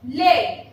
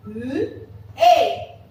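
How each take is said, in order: First: Said in the usual way. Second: "L-A" as lll, pause, ay; "L-A" split into a held l and a firm ay; sounded out. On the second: Shown as a demonstration. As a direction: sound out "L-A" by phonics. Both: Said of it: "how we are going to pronounce it".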